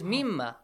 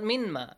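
First: The n merges into a doubled nasal m. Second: The n is pronounced separately before the m. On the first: The speaker calls it right. "It is mimma" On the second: The speaker calls it wrong. "It's not minma"

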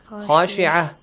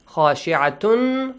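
First: The word ends with a short -ah sound. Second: The word ends with a full -atun ending. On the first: The reader pauses on this word. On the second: The reading continues without a stop.

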